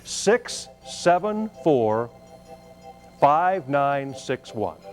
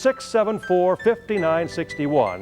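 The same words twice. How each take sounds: First: The number is said more slowly. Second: The number is said at normal speed.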